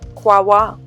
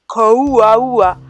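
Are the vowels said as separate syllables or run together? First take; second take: run together; separate. First: The vowels glide together into two short syllables. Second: Each vowel is sounded as its own syllable. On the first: The speaker calls it right. "really it is pronounced Kwawa" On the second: The speaker calls it wrong. "I would say something like Kauaua"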